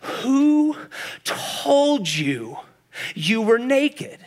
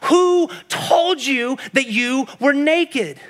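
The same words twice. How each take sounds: First: Slow, halting question with long pauses; heartbroken God. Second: Slow, higher, emphatic preaching question; impassioned demand. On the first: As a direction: ask it hurt, word by word. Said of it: "the broken heart of God". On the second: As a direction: drive every word home from the pulpit. Preacher's climax of God's question. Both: Acted.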